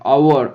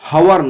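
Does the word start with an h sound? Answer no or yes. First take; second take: no; yes. First: The word begins with a vowel sound. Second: The word begins with an h sound. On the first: The speaker calls it right. "এই উচ্চারণটা আওয়ার" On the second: The speaker calls it wrong. "হাওয়ার নয়"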